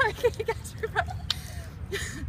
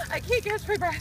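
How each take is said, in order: First: Slow, airless, barely voiced gasp; breathless whisper. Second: Panting after icy water; out of breath. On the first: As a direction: wheeze it out with no air. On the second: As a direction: gasp it out, winded. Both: Real, not acted.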